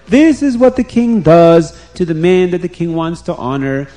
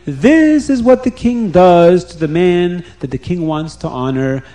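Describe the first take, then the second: First: Loud herald's proclamation, repeated; calling out again. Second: Loud public proclamation; calling out. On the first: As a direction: cry it out once more to the crowd. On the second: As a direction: proclaim it to the whole street. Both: Retold or imitated. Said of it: "he will call out to everybody".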